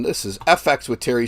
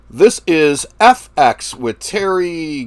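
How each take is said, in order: First: Said in the usual way. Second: Slow, higher, louder show-intro announcer voice; drawn-out hosting voice, stretching each word. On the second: Shown as a demonstration. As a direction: announce the channel name like a host opening the show.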